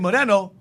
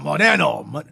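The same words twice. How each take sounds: First: It is said in a plain, neutral tone. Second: It is said in an angry, contemptuous tone. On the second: It is used as a racial insult.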